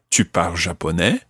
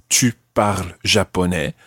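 First: The voice rises at the end. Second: The voice falls or stays level at the end. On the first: It asks whether the listener speaks Japanese. "if we raise our voices at the end" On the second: It states that the listener speaks Japanese. "would mean you speak Japanese"

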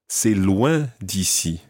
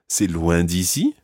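First: The voice falls at the end. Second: The voice rises at the end. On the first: It is a statement that it is far. "That means it's far from here" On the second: It asks whether it is far. "if you're raising your voice at the end, it's like asking a question"

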